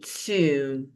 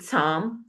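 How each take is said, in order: First: It has a long 'oo' vowel, rhyming with 'womb'. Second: It has a short vowel, like 'tom'. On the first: The speaker calls it right. "you say tomb" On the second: The speaker calls it wrong. "You don't say Tom"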